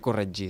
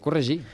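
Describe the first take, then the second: First: The middle consonant sounds like 'dj'. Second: The middle consonant sounds like 'zh'. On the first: The speaker calls it wrong. "no es pronuncia corregir" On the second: The speaker calls it right. "es pronuncia corregir"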